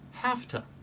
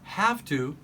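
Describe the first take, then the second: First: The word 'have' ends with an F sound. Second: The word 'have' ends with a V sound.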